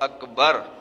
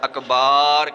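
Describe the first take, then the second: First: The second syllable has a short vowel. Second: The second syllable has a long vowel. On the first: The speaker calls it right. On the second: The speaker calls it wrong.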